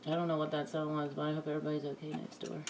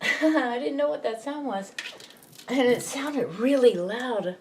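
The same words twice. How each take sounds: First: Fast, hushed and soft; quiet. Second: Higher, through a laugh. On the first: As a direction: murmur it quickly under your breath. Startled by a loud noise. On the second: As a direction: laugh it off in relief. Laughs about the noise after. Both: Real, not acted.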